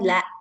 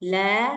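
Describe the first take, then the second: First: The vowel ends with an abrupt glottal catch. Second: The vowel ends openly with no catch. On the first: The speaker calls it wrong. "bukan la" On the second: The speaker calls it right. "Ujungnya jangan ditambah-tambah hamzah"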